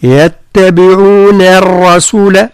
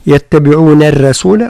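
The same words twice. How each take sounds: First: يتبعون الرسول slow, with a thin nun; correct light nun. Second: يتبعون الرسول with the nun wrongly made heavy. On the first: Teacher showing the right light nun. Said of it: "هكذا". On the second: Teacher showing the wrong heavy nun. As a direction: show the mistake: a thick nun. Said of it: "فلا نقول". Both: Shown as a demonstration.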